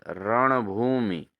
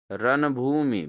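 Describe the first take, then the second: First: रणभूमि slowly, with retroflex n; correct pronunciation. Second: रणभूमि with plain n; wrong pronunciation. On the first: Teacher corrects students, रणभूमि slowly with retroflex n. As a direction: draw out रणभूमि and flap its n. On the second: Teacher shows students the error, रणभूमि with plain n. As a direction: say रणभूमि as "ran-bhoomi", dental n. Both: Shown as a demonstration. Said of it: "बिल्कुल गलत".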